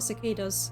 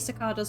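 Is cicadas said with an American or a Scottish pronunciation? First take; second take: American; Scottish. First: The word has an American pronunciation. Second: The word has a Scottish pronunciation. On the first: "not cicadas. I'm not American" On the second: "I say cicadas ... I'm Scottish. This is how we say it"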